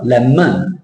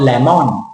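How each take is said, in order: First: Lemon with a weak schwa in the second syllable. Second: Lemon with a full O in the second syllable; wrong lemon. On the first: Teacher models the right lemon. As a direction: swallow the O in lemon. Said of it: "It's the O schwa". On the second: Teacher shows the wrong lemon. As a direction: say the O in lemon fully. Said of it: "not lemon". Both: Shown as a demonstration.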